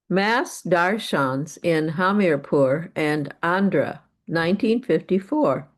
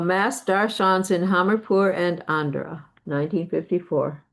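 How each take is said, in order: First: It is read slowly. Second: It is read quickly.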